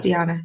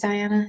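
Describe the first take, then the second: First: "Diana" said dee-AH-na; rejected pronunciation. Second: "Diana" said dye-AN-a; pronouncing Diana. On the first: Vlogger ruling out a name's pronunciation, "Diana" as dee-AH-na. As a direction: say "Diana" with an "ee" in the first syllable. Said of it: "It's not Diana". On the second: Vlogger working out a viewer's name, "Diana" as dye-AN-a. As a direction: say "Diana" with an "eye" in the first syllable. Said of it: "I think it's Diana". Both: Shown as a demonstration.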